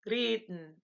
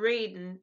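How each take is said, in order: First: The r is a German-style r sound. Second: The r is an English-style r sound. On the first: The speaker calls it right. "you'll take that r sound and you'll say reden" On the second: The speaker calls it wrong. "not reden"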